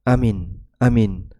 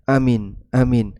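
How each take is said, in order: The two takes are said the same way.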